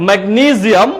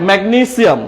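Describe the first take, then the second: First: "ম্যাগনেসিয়াম" as meg-NEE-ziam; Z pronunciation. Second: "ম্যাগনেসিয়াম" as meg-NEE-siam; S pronunciation. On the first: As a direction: model "ম্যাগনেসিয়াম" with a buzzing z. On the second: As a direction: model "ম্যাগনেসিয়াম" with a sharp s. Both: Shown as a demonstration. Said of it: "দুইটাই correct".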